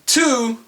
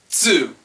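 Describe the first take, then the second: First: It begins with a plain t sound. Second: It begins with a t and s together. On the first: The speaker calls it wrong. "Now you might be thinking tu, but that's not correct" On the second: The speaker calls it right. "like a T and an S put right together"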